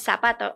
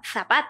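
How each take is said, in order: First: The z sounds like s, Latin American style. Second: The z sounds like th, Spanish style.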